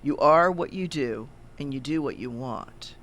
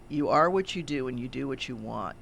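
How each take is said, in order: First: It is said slowly and deliberately. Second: It is said at a normal pace.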